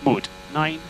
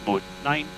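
The two takes are said the same way.

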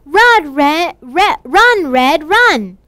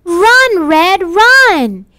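First: Said in the usual way. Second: Calling out loud to run; urgent shouted run. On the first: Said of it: "아니죠". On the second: Acted. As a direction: shout at her to flee the wolf. Teacher acts out a call to flee.

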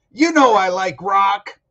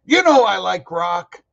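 First: Slow, drawn-out title with weight on know; stressed title read. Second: Louder, punchy read with the hit on you; delivered in this manner. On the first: Announcing the episode title with a slow, weighty stress. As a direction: say "You Know I Like Rock" slowly, leaning on know. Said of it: "You say it like that". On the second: Showing viewers how the title line should be said, punchy stress. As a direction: punch "you" in "You know I like rock". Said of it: "the line is delivered in this manner". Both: Shown as a demonstration.

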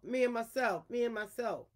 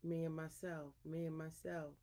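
First: Storyteller's mild lion roar; lion's roar. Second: Soft, humbled lion's call; subdued roar. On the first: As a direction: voice a proud roar without full force. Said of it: "Old he lion is roaring his head off". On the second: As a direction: say the boast softly, well below a roar. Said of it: "wasn't too loud either". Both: A narrator's reading.

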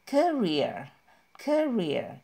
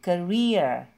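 First: "career" said KAR-ir with the first syllable stressed; wrong career stress. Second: "Career" with REER loud and falling; stress on career second syllable. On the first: Teacher showing the mistaken stress on career. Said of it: "jadi bukan". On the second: Teacher stressing the second syllable of career. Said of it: "ditekannya di suku kata kedua". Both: Shown as a demonstration.

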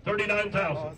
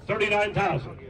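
Both takes have the same delivery.

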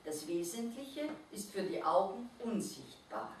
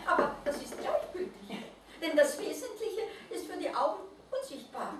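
First: Said in the usual way. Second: High, laughing, overjoyed little creature; joyful. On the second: A narrator's reading. Mole rat repeats the Christkind's words, laughing with joy. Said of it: "außer sich vor Freude".

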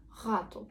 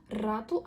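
First: ГАТУ with throaty fricative first sound; guttural R. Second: РАТУ with rolled tongue-tip R; trilled R. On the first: Teacher shows what they don't say, guttural ГАТУ. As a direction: start ГАТУ in the throat, no trill. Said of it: "а не гату". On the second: Teacher gives own pronunciation, rolled-R РАТУ. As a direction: begin РАТУ on a firm trill. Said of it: "також говорю рату". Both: Shown as a demonstration.

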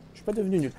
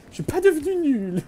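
First: Said in the usual way. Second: Much higher, squeaky self-mocking protest; high mock denial. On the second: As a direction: squeak it out like a wounded ego. Repeats line in put-on voice. (voix aiguë et moqueuse)

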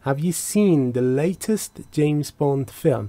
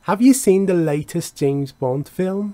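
First: "seen" stressed, falling tune; question, stress on seen. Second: "you" lifted, rising tune at the end; question, stress on you. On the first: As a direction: ask it slowly, leaning on "seen" and falling. (سؤال آهسته با تکیه روی seen و آهنگ افتان) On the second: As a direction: ask it slowly, leaning on "you" and rising. (سؤال آهسته با تکیه روی you و آهنگ خیزان) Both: Shown as a demonstration. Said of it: "سوال".

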